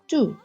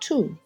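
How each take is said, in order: First: The word begins with a d sound. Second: The word begins with a t sound. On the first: This is the Eastern Armenian form. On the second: This is the Western Armenian form.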